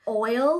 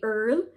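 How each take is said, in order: First: The vowel is an 'oy' sound, like 'oil'. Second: The vowel is an 'er' sound, like 'earl'. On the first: "Oil, like cooking oil" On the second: "we'll say earl, like E-A-R-L"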